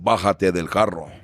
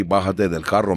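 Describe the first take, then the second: First: "Bájate del carro" in native Spanish, bah-HAH-teh del KAH-ro; Spanish phrase. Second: "Bájate del carro" again in Spanish, rising on carro; Spanish phrase. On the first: Quoting his people's Spanish, native Spanish pronunciation. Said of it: "you'll say". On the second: Explaining old-school Spanish to the host, rising Spanish repeat. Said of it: "And by the way". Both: Shown as a demonstration.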